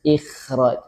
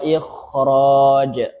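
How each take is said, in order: First: The kh sound is light and thin. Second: The kh sound is heavy and full. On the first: The speaker calls it wrong. "bukan jadi ikh ikhraj, enggak, salah" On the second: The speaker calls it right. "tetap ada eh, tebalnya ya"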